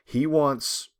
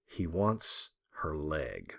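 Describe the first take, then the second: First: Said in the usual way. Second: Wants stretched, low and slow; dramatic low reveal on wants; stress on wants. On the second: Shown as a demonstration. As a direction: lower and slow, leaning on wants.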